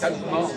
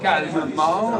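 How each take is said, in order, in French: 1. Certains sons sont omis, sous une forme réduite. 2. Chaque lettre est articulée pleinement et distinctement. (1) "au lieu de dire" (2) "ils vont tout articuler"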